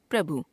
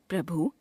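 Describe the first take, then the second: First: Said in the usual way. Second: प्रभु with a long final oo, "prabhoo"; wrong pronunciation. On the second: Shown as a demonstration. Teacher showing a u-vowel error, प्रभु ending on long oo. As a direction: stretch the last vowel of प्रभु. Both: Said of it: "अशुद्ध".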